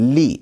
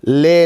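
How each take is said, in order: First: The vowel sounds like 'ee'. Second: The vowel sounds like 'ay'. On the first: The speaker calls it right. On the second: The speaker calls it wrong. "लाम ज़ेर ले नहीं"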